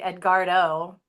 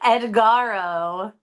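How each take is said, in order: First: The name has a d sound after r. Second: The name has no d sound after r. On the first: The speaker calls it right. "yep, there's a D" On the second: The speaker calls it wrong. "I'm probably pronouncing that wrong"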